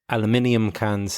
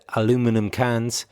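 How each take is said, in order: First: The word is said in the British way. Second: The word is said in the American way. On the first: "which is pronounced aluminium cans in the U K" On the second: "the speaker is from the United States. He said"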